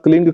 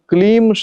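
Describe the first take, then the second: First: The word ends with an ng sound. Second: The word ends with an m sound. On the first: It is the seed syllable used for this practice. The speaker calls it right. "ग वाला जो उच्चारण होता है" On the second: It has a different ritual use. The speaker calls it wrong. "यहाँ क्लीम शब्द का प्रयोग नहीं करना है। जो म वाला जो उच्चारण होता है"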